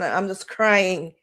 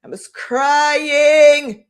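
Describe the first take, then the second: First: Said in the usual way. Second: High, loud, very slow sob-filled wail; real crying. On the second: Real, not acted. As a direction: break down as the memory hits.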